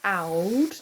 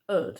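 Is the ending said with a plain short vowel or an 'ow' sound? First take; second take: 'ow' sound; plain vowel. First: The ending has an 'ow' sound, like spelled. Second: The ending has a short plain vowel, no 'ow'. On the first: The speaker calls it wrong. "I know it looks like oud" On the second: The speaker calls it right. "we pronounce this as ud"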